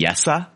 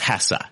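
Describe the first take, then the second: First: The name begins with a Y sound. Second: The name begins with an H sound. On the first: "pronounced like a Y with the H" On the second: "The easy one is Hessa"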